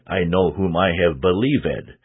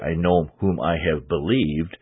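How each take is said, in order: First: Believed is said as three syllables. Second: Believed is said as two syllables. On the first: This is how the words are sung. "We sing" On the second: This is how the words are spoken. "we don't say"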